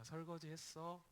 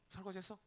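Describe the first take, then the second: First: The words are spoken slowly. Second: The words are spoken quickly. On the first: This is how she usually talks. "원래 말이 되게 느린데" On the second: She has just come back from meeting friends. "말이 빨라져 있어요. 갑자기 막"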